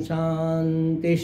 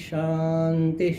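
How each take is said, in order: Both takes have the same delivery.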